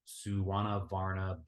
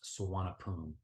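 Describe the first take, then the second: First: The middle consonant is a B sound. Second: The middle consonant is a P sound. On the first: The speaker calls it wrong. "an American will look at the spelling of it and most likely pronounce it as" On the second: The speaker calls it right. "to the Thai people, it's pronounced Suvarnabhumi. Very simple, Suvarnabhumi with a P, not a B"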